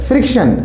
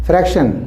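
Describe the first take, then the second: First: फ्रिक्शन with a clear fr and a short i, as in friction; friction said right. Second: फ्रैक्शन with an open ae vowel, as in fraction; fraction said right. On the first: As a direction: say फ्रिक्शन crisply: fr, short i, kshan. (फ्रिक्शन साफ़ 'फ्र' और छोटी 'इ' के साथ) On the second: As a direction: say फ्रैक्शन with a wide ae after fr. (फ्रैक्शन में खुली 'ऐ' ध्वनि) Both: Shown as a demonstration. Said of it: "इसी कन्फ्यूजन को समझना है हमें".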